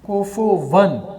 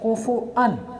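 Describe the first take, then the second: First: A w sound comes before the final 'an'. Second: A glottal stop comes before the final 'an'. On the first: The hamza is replaced to match the preceding vowel. "कोफो वन पढ़ सकते हैं" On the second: This is the original form with hamza. "असल में है कोफो अन"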